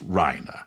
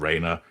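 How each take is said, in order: First: The first vowel sounds like 'rye'. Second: The first vowel sounds like 'ray'. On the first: The speaker calls it right. "the correct pronunciation so far as the Reiner family" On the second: The speaker calls it wrong. "not Rayner"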